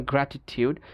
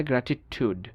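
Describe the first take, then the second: First: British গ্র্যাটিটিউড ending in TYOOD; Y glide in গ্র্যাটিটিউড; British pronunciation. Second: American গ্র্যাটিটিউড ending in TOOD; no Y glide in গ্র্যাটিটিউড; American pronunciation. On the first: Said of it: "ব্রিটিশরা বলে যেমন". (গ্র্যাটিটিউড-এ ইউ, British) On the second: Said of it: "আমেরিকানরা বলে". (গ্র্যাটিটিউড-এ উ, American) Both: Shown as a demonstration.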